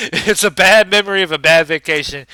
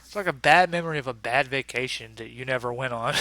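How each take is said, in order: First: Loud, laughing second telling; laughing repeat. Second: Said in the usual way. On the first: Real, not acted. Repeating the joke to viewers, louder while laughing.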